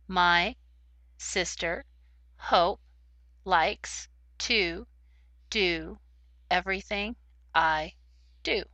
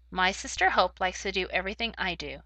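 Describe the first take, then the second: First: The words are read very slowly, one by one. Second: The words are read at a steady, natural speed. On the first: The speaker calls it wrong. "If you read too slowly, it sounds like words, but they don't go together to make a sentence" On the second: The speaker calls it right. "If you read at the correct pace, ... It sounds just right"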